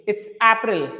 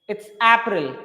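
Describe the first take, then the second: The two takes are said the same way.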